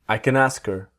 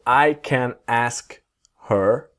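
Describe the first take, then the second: First: The h in 'her' is dropped, linking smoothly. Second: The h in 'her' is clearly pronounced.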